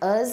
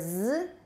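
First: The word is said with a reduced vowel. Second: The word is said as a bare consonant. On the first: "weak form us or z" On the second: "weak form us or z"

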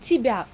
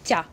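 First: The word is said in its full two-syllable form. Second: The word is shortened to one syllable. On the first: "мы не говорим тебя" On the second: "мы говорим просто тя"

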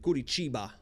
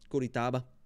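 First: The third syllable has an 'ee' vowel. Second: The third syllable has an 'ah' vowel. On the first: The speaker calls it right. "That's how you say it" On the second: The speaker calls it wrong. "Not Taba"

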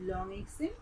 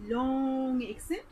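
First: The vowel sounds are kept short. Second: The vowel sounds are drawn out long. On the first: "it is short accent actually" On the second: "that is called long accent"

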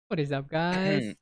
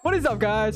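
First: It is said with little enthusiasm. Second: It is said with more enthusiasm.

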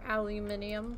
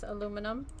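First: The word is said with five syllables, ending in -nium. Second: The word is said with four syllables, ending in -num. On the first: "Or aluminium" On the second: "Like this aluminum"

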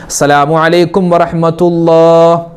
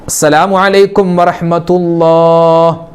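No difference in how they are said.

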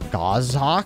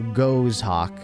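First: The first vowel is a short O sound. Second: The first vowel is a long O sound. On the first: "A short O" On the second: "Ghost without the T H"

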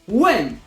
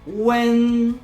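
First: The syllable is short and firm, like a command. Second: The pitch stays high, level and long. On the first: "krótki, stanowczy ton głosu. Jakbyśmy wydawali rozkaz" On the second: "To jest długi i wysoki dźwięk"

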